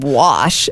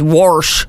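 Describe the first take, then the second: First: There is no R sound before the sh. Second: An R sound is added before the sh.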